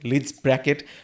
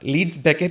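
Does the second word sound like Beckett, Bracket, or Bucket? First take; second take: Bracket; Beckett. First: The second word is said as 'Bracket'. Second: The second word is said as 'Beckett'. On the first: The speaker calls it wrong. "They pronounce it at" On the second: The speaker calls it right. "Leeds ব্যাকেট is the name."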